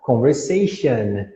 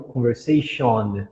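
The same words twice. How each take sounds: First: Slow "Conversation" with weak "shun" ending; correct "an" ending. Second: Slow "conversation" with full "shon" ending; wrong "on" ending. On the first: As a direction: reduce the last vowel of "Conversation" to schwa. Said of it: "Conversation e não conversation". ("Conversation" devagar, com som de "an" no final) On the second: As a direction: stretch a round O at the end of "conversation". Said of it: "e não conversation". ("conversation" devagar, com "on" cheio no final) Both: Shown as a demonstration.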